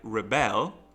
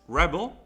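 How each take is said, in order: First: The stress is on the second syllable. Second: The stress is on the first syllable. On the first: It is the action of rebelling. "it is the verb" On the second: It names a person who rebels. "it means uh, like the person who performs a rebellion"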